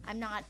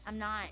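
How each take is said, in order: The two takes are said the same way.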